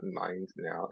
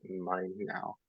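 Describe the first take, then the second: First: Said in the usual way. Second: "mine now" very slow and soft, with no d before now; mine now, blended. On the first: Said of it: "it's not mind now". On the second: Shown as a demonstration. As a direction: stretch "mine now" so the n runs straight into now. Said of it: "it's not mind now, it's mine now".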